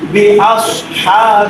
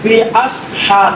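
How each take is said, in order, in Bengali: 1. "s" ধ্বনিটি মোটা ও ভারী। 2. "s" ধ্বনিটি সরু ও হালকা। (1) "সদের উচ্চারণ মোটা হবে এখানে আওয়াজও মোটা হবে" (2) "যদি কেউ বলে বি আস হা তাহলে কি হয়ে গেল ভুল হয়ে গেল"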